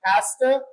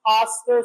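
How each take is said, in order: First: It is said with a British accent. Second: It is said with an American accent. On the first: "But British"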